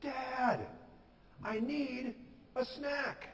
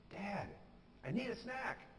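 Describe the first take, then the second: First: Put-on high, drawn-out kid's holler; acted shout. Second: High but soft mock holler; confident cry, held back. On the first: Hungry boy in bed calling his dad, shouting. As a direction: holler for Dad as if from another room. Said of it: "he shouted". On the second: Hungry boy sure of his dad, softly mimicked call. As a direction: imitate a boy calling out, volume turned down. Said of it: "he cried out boldly and confidently".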